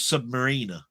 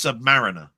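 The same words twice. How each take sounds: First: The ending sounds like the word marina. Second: The ending sounds like the word mariner. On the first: The speaker calls it wrong. "I thought it was Submariner" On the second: The speaker calls it right. "but it's Submariner"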